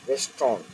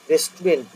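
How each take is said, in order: First: "রেস্টুরেন্ট" shortened to "res-tron"; correct pronunciation. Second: "রেস্টুরেন্ট" said as "res-tu-rent"; rejected pronunciation. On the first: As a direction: say "res-tront" with rounded o, falling. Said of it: "এরকম উচ্চারণটা হবে". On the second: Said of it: "রেস্টুরেন্ট না". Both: Shown as a demonstration.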